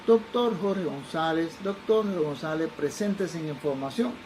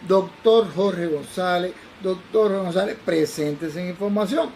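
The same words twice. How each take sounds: First: Slow, drawn-out loudspeaker call; airport announcement. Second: Slow, pressing loudspeaker page; more insistent announcement. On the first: Airport speaker paging the doctor, slow announcement. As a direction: page him slowly like an airport PA. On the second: Airport speaker paging again, more imperative. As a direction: repeat the page with a commanding edge. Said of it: "ya yo lo veía que era un poco más imperativo". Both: Retold or imitated.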